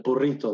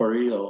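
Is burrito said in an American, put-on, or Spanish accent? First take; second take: Spanish; American. First: It is said with a Spanish pronunciation. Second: It is said with a typical American pronunciation. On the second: "like an average American called a burrito"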